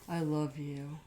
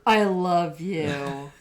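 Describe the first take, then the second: First: It is said quietly. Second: It is said more loudly.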